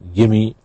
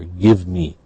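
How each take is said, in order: First: The two words blend into one reduced form. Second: The two words are said fully and separately.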